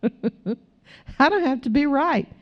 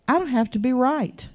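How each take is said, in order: First: Higher and slow after a real chuckle; chuckle, then say it with amusement; real laugh leading into the words. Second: Said in the usual way. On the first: Real, not acted. Laughs, then repeats the line.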